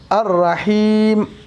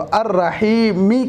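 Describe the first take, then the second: First: The word ends on a bare m sound. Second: The word ends with a short i vowel. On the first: The reader stops at the end of the verse. The speaker calls it right. "ज़ेर को हटाएंगे, जज़म देकर पढ़ेंगे" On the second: The reading continues without a stop. The speaker calls it wrong. "अर्रहीमी कहने के बजाय"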